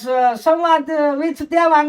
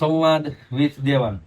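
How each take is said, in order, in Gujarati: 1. આ વૃદ્ધ સ્ત્રીના અવાજમાં બોલાયું છે. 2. આ વક્તાના સામાન્ય પુખ્ત અવાજમાં બોલાયું છે.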